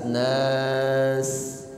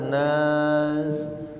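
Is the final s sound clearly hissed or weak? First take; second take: clearly hissed; weak. First: The final s sound is a clear, flowing hiss. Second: The final s sound is short and weak. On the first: The speaker calls it right. "sinnya jelas" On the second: The speaker calls it wrong. "jangan sekedar nas"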